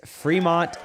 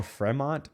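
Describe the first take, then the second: First: Fremont with a FREE first syllable; alternative pronunciation. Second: Fremont with short e, FREH-mont; alternative pronunciation. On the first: Vlogger naming the happiest city, Fremont said as FREE-mont. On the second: Vlogger unsure of the city's name, Fremont said as FREH-mont. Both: Shown as a demonstration. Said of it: "I don't know how you say that".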